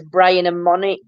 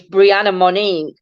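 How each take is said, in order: First: "Brian and" for Brianna, BRY-un-un; "Brian and Monique", BRY-an first; misread name. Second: "Brianna" as bree-AH-na; "Brianna Monique", bree-AH-na first; correct name reading. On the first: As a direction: say Brian with a long eye vowel. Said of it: "I read it as". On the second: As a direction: say Brianna with an ee and open ah. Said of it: "I didn't read this one properly". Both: Shown as a demonstration.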